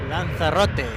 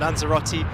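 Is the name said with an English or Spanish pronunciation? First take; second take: Spanish; English. First: The name is said with Spanish pronunciation. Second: The name is said with English pronunciation. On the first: "obviously in the Spanish um, pronunciation there" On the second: "with the English intonation"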